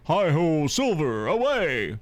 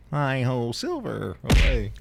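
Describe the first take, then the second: First: It is delivered in a dramatic heroic style. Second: It is delivered in a plain natural voice.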